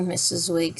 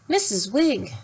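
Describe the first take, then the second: First: Said in the usual way. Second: Higher thin indignant lady; thin-voiced lady. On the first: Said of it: "said Jane politely". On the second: A narrator's reading. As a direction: repeat the name like an offended spinster. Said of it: "in a voice even thinner than herself".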